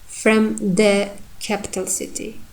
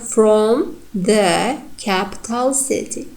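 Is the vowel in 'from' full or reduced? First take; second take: reduced; full. First: The vowel in 'from' is reduced to schwa. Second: The vowel in 'from' is full. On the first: The speaker calls it right. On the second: The speaker calls it wrong.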